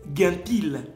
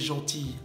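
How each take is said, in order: First: It starts with a hard 'g' sound. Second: It starts with a soft 'zh' sound. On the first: "On lirait guintil" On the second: "quand vous écrivez gentille en français"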